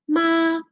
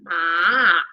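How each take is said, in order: First: The pitch stays high and level. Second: The pitch falls and then rises. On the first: It means mother. "tiene el número uno porque es primer tono" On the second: It means horse. "es un tono que baja y vuelve a subir"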